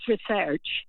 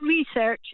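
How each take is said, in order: First: It is said the British way. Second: It is said the American way.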